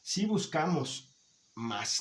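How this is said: There is a pause before the word mas. It means but. "hay una coma que nos ayuda a separar"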